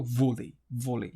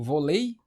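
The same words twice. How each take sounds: First: Vôlei stressed on VÔ, dropping on lei; first-syllable stress in vôlei, closed O. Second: Vôlei stressed on the final LEI; wrongly end-stressed vôlei, like vo-LEI; stress on last syllable. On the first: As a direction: say vôlei as VÔ-lei, low falling end. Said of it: "eu falo vôlei". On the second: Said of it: "Eu falo vôlei". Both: Shown as a demonstration.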